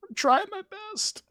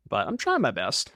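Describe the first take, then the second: First: Much higher, tiny cartoon squeak; squeaky little voice. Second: Said in the usual way. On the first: Streamer pleading with chat in a squeaky high voice. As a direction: pipe it up like a small pleading creature.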